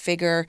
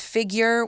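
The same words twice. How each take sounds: First: No 'y' sound comes after the g. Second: A 'y' sound comes after the g. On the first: This is the more British way. "yours is more of a um, a U K kind of pronunciation" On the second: This is the more North American way. "I pronounce it as figure"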